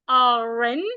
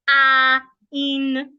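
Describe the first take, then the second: First: The R runs straight into the next vowel. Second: The two words are said separately, unlinked. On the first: The speaker calls it right. "I must link it. So I'm going to read it like this" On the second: The speaker calls it wrong. "not a in"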